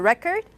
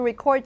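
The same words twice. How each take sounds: First: The stress is on the first syllable. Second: The stress is on the second syllable. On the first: It is used as a noun. "as a record" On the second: It is used as a verb. "I want to record you"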